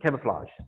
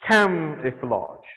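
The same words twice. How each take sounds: First: The word is said loosely, without crisp sounds. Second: The word is said with every sound clearly articulated. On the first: The speaker calls it wrong. "don't say the words like" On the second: The speaker calls it right. "like over articulate"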